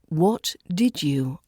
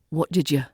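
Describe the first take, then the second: First: Each word is said separately and fully. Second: The words run together with a softened D.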